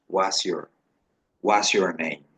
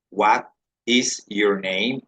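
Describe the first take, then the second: First: "What's your name?" run together fast as "wasjor"; rapid spoken model; quick contracted form. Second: "What is your name?" said slowly, each word separate; careful teacher model; slow full form. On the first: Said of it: "de manera veloz se puede decir". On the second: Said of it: "se dice". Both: Shown as a demonstration.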